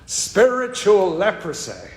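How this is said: It is said in a southern accent.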